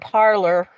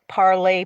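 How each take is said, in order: First: The word ends with an 'or' sound. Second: The word ends with an 'ay' sound. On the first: The speaker calls it right. "I think I said it right the first time" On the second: The speaker calls it wrong. "I say parley because that's how it's pronounced"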